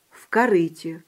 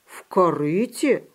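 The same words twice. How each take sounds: First: Said in the usual way. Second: Slow, wondering "В корыте?"; lightly acted puzzled question; surprised echo question. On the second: A narrator's reading. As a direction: repeat "В корыте?" slowly in disbelief. Puppy echoes in amazement.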